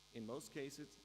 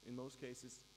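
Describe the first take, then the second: No difference in how they are said.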